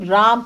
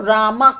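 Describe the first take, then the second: First: The word ends on the consonant, without final vowel. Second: The word ends with an added final 'a' vowel. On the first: "हम लोगों का pronunciation राम है" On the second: "उन्होंने उसको रामा करा"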